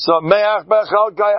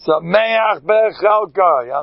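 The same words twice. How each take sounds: First: Slow high Sameach B'chalkai, lingering; savoring again. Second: Slow drawn-out Sameach B'chalkai, stretched and high; savoring the phrase. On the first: Preacher repeating the verse, slow and high. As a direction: stretch Sameach B'chalkai lovingly. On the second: Preacher lingering over the verse, slow and high. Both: Shown as a demonstration. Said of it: "I have this nervous twitch".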